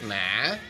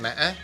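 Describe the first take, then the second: First: It is said with the hỏi tone. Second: It is said with a broken tone. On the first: "Hỏi"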